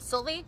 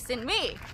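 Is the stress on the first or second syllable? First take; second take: first; second. First: The stress is on the first syllable. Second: The stress is on the second syllable. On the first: Thai listeners do not recognize it. The speaker calls it wrong. "blank faces, nothing" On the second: Thai listeners recognize it. The speaker calls it right. "putting the emphasis on the second syllable"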